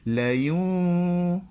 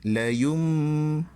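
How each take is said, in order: First: The m is said with lips slightly open. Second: The m is said with lips fully closed. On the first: The speaker calls it right. "Dia mesti la yum" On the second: The speaker calls it wrong.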